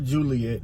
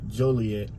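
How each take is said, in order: First: The name sounds like the girl's name Juliet. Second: The name is said as Joliet, not Juliet. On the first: The speaker calls it wrong. "not Juliet" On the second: The speaker calls it right. "I guess that's how you say it"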